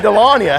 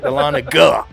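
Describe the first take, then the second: First: The middle g sound is dropped. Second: The middle g sound is clearly pronounced. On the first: "I say Delania" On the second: "really enunciate the G"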